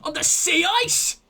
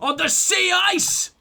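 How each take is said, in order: First: It is said with moderate feeling. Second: It is said with much more intensity.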